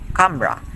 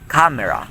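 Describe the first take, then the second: First: It has two syllables without the middle vowel. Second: It has three syllables with the middle vowel.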